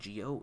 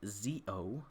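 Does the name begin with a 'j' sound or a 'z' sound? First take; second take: j sound; z sound. First: The name begins with a soft 'j' sound. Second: The name begins with a 'z' sound. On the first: The speaker calls it wrong. "You're actually not supposed to say Geo" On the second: The speaker calls it right. "It's pronounced Z O"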